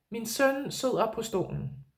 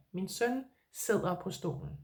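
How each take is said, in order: First: Said in the usual way. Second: Softer, lower model sentence, Min søn sidder på stolen said gently; quiet, lower repeat of the Danish example. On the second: Shown as a demonstration. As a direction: say Min søn sidder på stolen again, softly, for the learner to copy. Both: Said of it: "So I could say".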